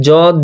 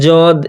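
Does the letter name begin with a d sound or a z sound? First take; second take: z sound; z sound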